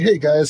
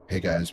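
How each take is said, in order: First: It is said with lively, energetic, varied pitch. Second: It is said quietly in a flat monotone. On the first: "Compared to be like" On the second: "it's so monotone that like sometimes it reminds me of like me when I'm trying to be quiet"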